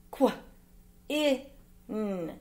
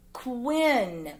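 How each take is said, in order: First: "Qu-, i-n" as short kw, short i, nnn; sounded out. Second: Said in the usual way. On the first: Shown as a demonstration. Teacher reading words with pupils, "Qu-, i-n" sound by sound. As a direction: say "Qu-, i-n" as three sounds with gaps.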